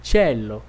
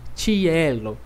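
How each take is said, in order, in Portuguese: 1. Não há um som de 'i' forte depois do 'ch'. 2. Um som de 'i' forte vem depois do 'ch'. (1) "eu não fiz som de I muito forte" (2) "Eu não disse cielo"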